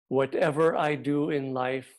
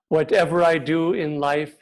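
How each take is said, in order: First: It is spoken quietly. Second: It is spoken loudly. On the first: It absorbs the meaning of the words. "Now a little more quietly" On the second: It grabs our attention. "first loudly"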